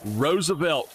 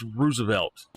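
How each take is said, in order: First: "Roosevelt" said ROSE-uh-velt, long O; "Roosevelt" with ROSE as the first syllable; wrong Roosevelt. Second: "Roosevelt" said ROO-zuh-velt, OO as in room; "Roosevelt" begun with ROO; right Roosevelt. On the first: Mimicking how people wrongly say Roosevelt, ROSE-uh-velt. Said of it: "people call it". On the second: Telling viewers the right Roosevelt, ROO-zuh-velt. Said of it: "It's Roosevelt". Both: Shown as a demonstration.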